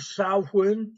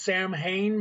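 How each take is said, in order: First: The middle is said with a W sound. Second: The M and H are sounded separately. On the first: The speaker calls it right. "The M and the H make the W sound with the M together" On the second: The speaker calls it wrong. "everyone thinks is Sam Hain because it has S A M H"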